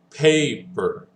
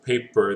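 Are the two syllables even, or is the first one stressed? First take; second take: first stressed; even. First: The first syllable gets stronger emphasis. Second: Both syllables get equal, flat emphasis. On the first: The speaker calls it right. "if we emphasize the A, it's actually paper" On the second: The speaker calls it wrong. "English is not a flat language... it's not just paper"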